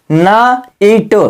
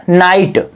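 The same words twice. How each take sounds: First: "ना इट" split into two slow parts; syllable by syllable. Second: Said in the usual way. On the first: Shown as a demonstration. Teacher to class, slowly splitting "ना इट". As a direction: break "ना इट" apart very slowly. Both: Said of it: "GH का उच्चारण नहीं हुआ".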